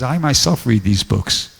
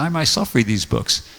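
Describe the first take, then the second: First: "I myself read these books." with myself stressed and slowed; slow emphatic quote. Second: "I myself read these books." with "I" stressed and a falling end; repeated quote, stress on I. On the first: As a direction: press on "myself", measured and firm. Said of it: "he says". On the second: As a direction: lean on the word "I", settle down at the end. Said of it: "He says". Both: Retold or imitated.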